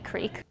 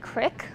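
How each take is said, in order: First: The vowel is a long ee sound. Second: The vowel is a short i sound. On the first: Some people say it this way. "but some say creek" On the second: Most people still say it this way. "most of them still say crick"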